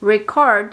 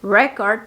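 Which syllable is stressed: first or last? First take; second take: last; first. First: The stress is on the last syllable. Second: The stress is on the first syllable. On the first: It means to record. "haciendo énfasis en la última sílaba" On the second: It means proof or evidence. "haciendo énfasis en la primera sílaba"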